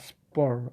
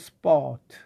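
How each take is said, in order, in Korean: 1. 모음 뒤에 R 소리를 넣어 발음합니다. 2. 모음 뒤에 R 소리 없이 발음합니다. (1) "미국은 아, 스포 R 발음이 납니다" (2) "영국은 R 발음이 좀 잘 나지 않습니다"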